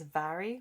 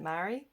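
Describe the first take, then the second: First: The name begins with a V sound. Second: The name begins with an M sound. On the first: This is the traditional way to say it. "the traditional way is Vary, like pronouncing it with a V" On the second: A family member says it this way. "she pronounces it Mary"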